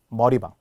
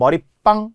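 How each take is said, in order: First: The last syllable starts with a plain b sound. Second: The last syllable starts with a tense pp sound. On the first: It means a hair salon. "머리방은 발음의 변화가 없기 때문에" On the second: It means a small side room. "이렇게 빵이라고 된 소리 나니까"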